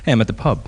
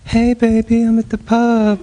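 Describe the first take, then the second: First: It is said in a plain, unsoftened tone. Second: It is said in a sweet, reassuring tone.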